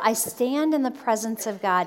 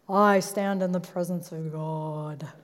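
First: It is said in a normal voice. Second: It is said in a deep voice.

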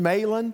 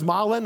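First: The name has an English pronunciation. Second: The name has a non-English pronunciation.

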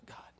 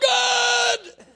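First: The word is said quietly and calmly. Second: The word is shouted loudly.

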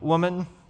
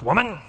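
First: It is said in a tender tone. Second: It is said in a harsh tone.

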